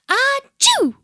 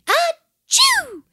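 First: High, loud two-part achoo; storybook sneeze. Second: Very high, exaggerated achoo; proud fake sneeze. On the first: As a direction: let an acted sneeze burst out high. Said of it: "he sneezed". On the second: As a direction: show off with a put-on sneeze. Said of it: "he said proudly". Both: A narrator's reading.

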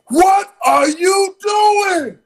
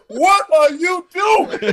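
First: High, slow, loud startled yell; imitating a startled shout. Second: Laughing mock shout. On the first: Attendant catching him in the club shower, high mock yell. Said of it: "He says to me". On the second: Retelling the attendant's yell as a punchline, high laughing shout. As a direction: repeat the startled yell while laughing. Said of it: "it's kind of the same thing".

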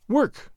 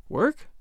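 First: "Work" as a falling statement; "Work" stated as the final answer; firm statement. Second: "Work" as a rising question; puzzled "Work" with a rising end; questioning echo. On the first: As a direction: announce "Work" with a high start and firm fall. He names the prescription. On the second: She echoes it as a question. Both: A narrator's reading.

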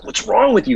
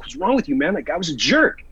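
First: High, raised-voice retold reproach; appalled scolding. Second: Mildly raised pitch, retold protest; indignant retort. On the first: Buddy dragging his friend off, appalled scolding. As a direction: imitate a friend aghast at you. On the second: Defending himself to his buddy, mildly indignant. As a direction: push back at a scolding friend, no shouting.

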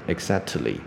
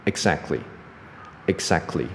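First: "exactly" with a vowel after the t, exact-uh-ly; wrong pronunciation. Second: Slow "exactly" with no t, exac-kly; teacher's own pronunciation. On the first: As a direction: sound out a superfluous "tuh" in "exactly". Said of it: "不是念". (错误示范"exactly"，t后多加母音) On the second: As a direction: glide from k into ly in "exactly", t silent. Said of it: "我的念法，OK， 大家听". (示范"exactly"，不发t，念exac-cly) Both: Shown as a demonstration.

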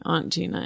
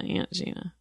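First: "Aunt" as ahnt, softly; broad-A pronunciation. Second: "Aunt" like the insect ant, nearly whispered; short-A pronunciation. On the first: Guest trying it out again, "Aunt" said as ahnt. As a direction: say "Aunt" with the vowel of father. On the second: Guest muttering the other option, "Aunt" as ant. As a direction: try "Aunt" with the vowel of cat, very soft. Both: Shown as a demonstration. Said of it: "sounds wrong or something".

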